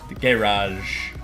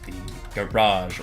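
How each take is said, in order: First: It is said in a British accent. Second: It is said in an American accent.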